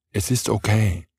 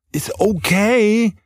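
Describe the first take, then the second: First: Said in the usual way. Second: Drawn-out, much higher, gentle "Ist okay"; forgiving okay. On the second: Acted. Partner forgives a forgotten errand, slow high gentle reassurance.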